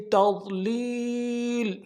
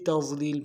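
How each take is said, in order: First: The middle consonant is a heavy emphatic d. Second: The middle consonant is a plain z sound. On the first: The speaker calls it right. "वात अदा करना है" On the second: The speaker calls it wrong. "ज़ा के साथ ... ऐसा नहीं करना"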